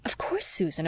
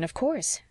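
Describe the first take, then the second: First: Said in the usual way. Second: Higher, rising reassurance; reassuring. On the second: Acted. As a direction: lift it up to reassure. Reassures Susan, repeats phrase.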